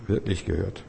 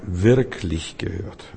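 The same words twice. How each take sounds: First: "wirklich gehört" much softer, fading; soft repeat. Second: Wirklich slow and drawn out; "wirklich" langsam und gedehnt betonen; stress on wirklich. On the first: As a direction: leise nachhallen lassen. ("wirklich gehört" viel leiser wiederholen) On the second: ("wirklich" langsam, gedehnt und betont) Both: Shown as a demonstration. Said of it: "ich meine, wirklich gehört".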